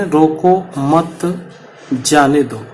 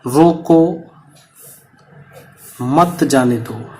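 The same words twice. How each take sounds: First: रोको मत together, pause, then जाने दो; slow रोको मत, stop, then जाने दो falling; pause after मत. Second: रोको alone, long pause, then मत जाने दो run together; pause after रोको. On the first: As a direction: break after मत, keeping it with रोको. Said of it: "दूसरे वाले में". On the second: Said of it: "अब मैं इसमें एक विराम चिन्ह लगा रहा हूं". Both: Shown as a demonstration.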